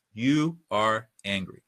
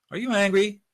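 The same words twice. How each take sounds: First: Slow, even statement falling on angry; no rising inflection. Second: ANGRY lifted high as a question; rising inflection. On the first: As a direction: state it deliberately, angry going down. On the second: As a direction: ask it with pitch climbing on angry. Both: Shown as a demonstration. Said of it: "no rising inflection".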